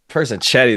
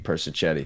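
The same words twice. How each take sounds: First: The middle consonant is a hard k sound. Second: The middle consonant is a ch sound. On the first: "It's K instead of Ch" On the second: "if it was just C, it would be"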